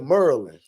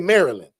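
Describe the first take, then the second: First: It is said in a Baltimore accent. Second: It is said in a country accent.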